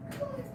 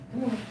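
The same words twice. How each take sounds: First: Very high, soft squeaky coo. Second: Said in the usual way. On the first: Real, not acted. Coaxing her dog in baby talk.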